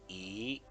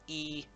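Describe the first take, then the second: First: The pitch rises. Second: The pitch does not rise.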